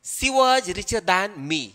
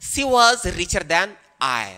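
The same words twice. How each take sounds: First: Slow model of the wrong form; slow wrong example. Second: Slow, careful model sentence; slow correct example. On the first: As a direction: read the wrong version slowly. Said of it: "जो wrong होगा". (गलत वाक्य धीरे-धीरे) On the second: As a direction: dictate the right version slowly. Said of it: "यहाँ पर correct जो होगा वो I होगा". (सही वाक्य धीरे-धीरे) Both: Shown as a demonstration.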